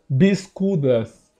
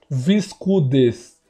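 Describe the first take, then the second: First: The word begins with a B sound. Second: The word begins with a V sound. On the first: The speaker calls it right. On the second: The speaker calls it wrong.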